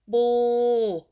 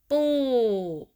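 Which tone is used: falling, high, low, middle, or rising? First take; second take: middle; falling. First: The pitch stays level in the middle. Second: The pitch falls across the syllable. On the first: "Start with middle tone" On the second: "falling tone"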